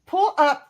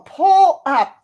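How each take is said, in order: First: Said in the usual way. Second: "pull up" drawn out slowly and louder, each word weighed; slow puzzled reread. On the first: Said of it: "I think that's pull". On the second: Shown as a demonstration. Streamer rereading a chat poll word slowly and louder. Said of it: "Yeah, it's a poll".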